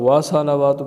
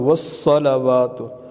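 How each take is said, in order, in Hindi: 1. 's' की आवाज़ छोटी और एक है। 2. 's' की आवाज़ खिंची हुई और दोहरी है।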